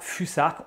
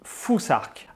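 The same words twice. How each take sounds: First: The middle consonant is a plain 's' sound. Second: The middle consonant is like English 'th'. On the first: The speaker calls it wrong. "on ne dit pas fusarque" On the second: The speaker calls it right. "on dit fusarque"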